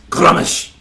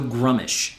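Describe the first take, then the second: First: It is said in a rough, guttural voice. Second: It is said in a plain, ordinary voice. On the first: "how would you say it in orc? Because orc's a very guttural language" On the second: "that's how I've always pronounced it"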